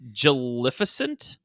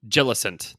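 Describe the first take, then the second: First: The name has four syllables, with an extra 'fi'. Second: The name has three syllables, with no 'fi'. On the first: The speaker calls it wrong. "We have been incorrectly mispronouncing" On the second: The speaker calls it right. "there's no extra letter"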